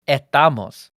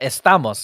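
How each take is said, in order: First: The s sounds in the word are dropped. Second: The s sounds in the word are pronounced.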